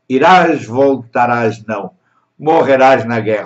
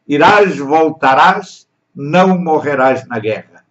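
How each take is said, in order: First: There is a pause right after 'não'. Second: There is no pause after 'não'. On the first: You will die in the war. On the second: You will not die in the war.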